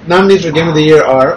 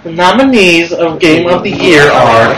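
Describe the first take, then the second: First: It is said in a normal speaking voice. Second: It is said in a put-on announcer voice.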